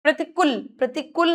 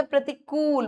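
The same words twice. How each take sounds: First: प्रतिकूल ending in a short "kul"; no long oo in प्रतिकूल; short-u error. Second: Stretched last syllable in प्रतिकूल; long ū. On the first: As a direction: say प्रतिकूल wrongly with a brief u. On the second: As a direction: hold the oo in प्रतिकूल. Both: Shown as a demonstration. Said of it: "बड़े ऊ की मात्रा".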